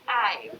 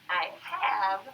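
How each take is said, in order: First: It is said as one contracted word. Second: It is said as two separate full words. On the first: "we can just say I" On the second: "instead of saying I have"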